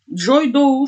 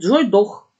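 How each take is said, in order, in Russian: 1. Слово 'dough' заканчивается на открытый гласный скользящий звук. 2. Слово 'dough' заканчивается на резкий звук 'kh'. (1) "везде «Доу»" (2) "прочитала, говорит, Джой Дох"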